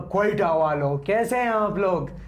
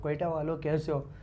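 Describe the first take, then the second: First: It is said in a loud, boosted voice. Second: It is said in a normal conversational voice.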